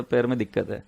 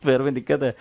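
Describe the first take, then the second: First: Laughing. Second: Said in the usual way. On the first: Real, not acted. Laughs at his excuse.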